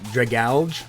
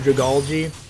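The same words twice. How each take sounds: First: The ending is not pronounced like algae. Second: The ending is pronounced like the word algae. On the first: The speaker calls it wrong. "I've heard people call it Dragalge" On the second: The speaker calls it right. "but it's algae"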